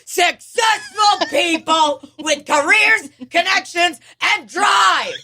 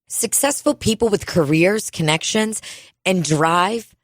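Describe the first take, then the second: First: It is read in an excited, exclamatory tone. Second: It is read in a plain, flat tone.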